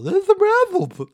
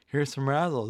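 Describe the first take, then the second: First: Very high, loud, slow goofy Neanderthal; Paul. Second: Said in the usual way. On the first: Retold or imitated. Friend imitating Paul eating candy, weird high Neanderthal voice. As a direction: drag it out in a big high caveman voice. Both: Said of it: "That's what we used to read Paul".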